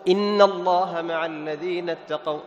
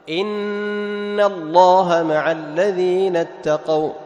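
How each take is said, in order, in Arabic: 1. النون المشددة لها غنة قصيرة. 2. النون المشددة لها غنة طويلة. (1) "لا تقول" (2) "لاحظ النون مشددة فتعطيها غنة بمقدار حركتين"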